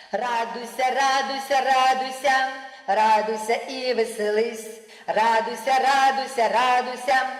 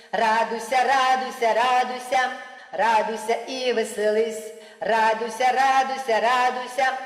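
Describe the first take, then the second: Both takes have the same delivery.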